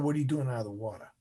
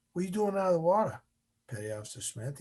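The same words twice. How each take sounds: First: Lightly voiced instructor insisting on an answer; instructor's firm repeat. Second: Fast, higher-pitched retold question; lightly voiced instructor, pitched up; instructor's quick query. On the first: Instructor repeats question, now stern. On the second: Instructor's first question to trainee.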